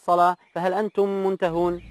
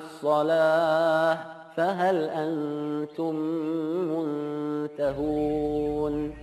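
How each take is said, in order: First: Read plainly, without elongations or careful articulation. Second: Read with elongated vowels and careful, precise articulation. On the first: The speaker calls it wrong. "membaca tanpa tajwid dan tanpa itqon" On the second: The speaker calls it right. "Bila dengan tajwid"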